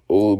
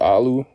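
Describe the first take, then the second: First: The name begins with an 'oh' vowel. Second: The name begins with an 'ah' vowel. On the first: The speaker calls it right. "Olu becomes Alu" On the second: The speaker calls it wrong. "Olu becomes Alu"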